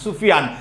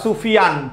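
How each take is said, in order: First: The word ends cleanly on the n consonant. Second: The word ends cleanly on the n consonant.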